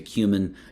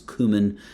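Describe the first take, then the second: First: It is said with a non-American dialect pronunciation. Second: It is said with the American English pronunciation. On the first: "the other dialects will say cumin" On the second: "American English typically prefers cumin"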